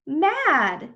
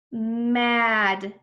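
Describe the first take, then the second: First: Said in the usual way. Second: Drawn-out blending. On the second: Shown as a demonstration. Teacher blends letter sounds, Mad drawn out. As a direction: stretch every sound of Mad.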